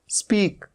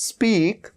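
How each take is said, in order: The two takes are said the same way.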